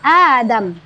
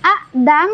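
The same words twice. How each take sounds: First: The first vowel is lengthened with no glottal stop. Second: A glottal stop is heard after the first vowel.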